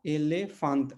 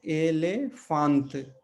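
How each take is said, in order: First: एलेफांत repeated with a falling end; repeated word demo. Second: एलेफांत said slowly, e-le-fant; Portuguese word demo. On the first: Teacher repeating elefante for students, falling. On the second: Teacher modelling elefante for students, slowly. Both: Shown as a demonstration. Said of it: "यहाँ पे एक उसका उदाहरण है एलेफांत".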